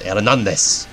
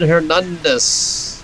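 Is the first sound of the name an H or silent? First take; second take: silent; H. First: The name begins with a silent H. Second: The name begins with an audible H sound. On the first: The speaker calls it right. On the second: The speaker calls it wrong.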